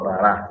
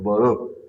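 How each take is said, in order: First: The final vowel is an open 'ah' sound. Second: The final vowel is a rounded 'oh' sound. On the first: The speaker calls it wrong. "eles não falam Bará" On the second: The speaker calls it right. "eles falam, falam Baró"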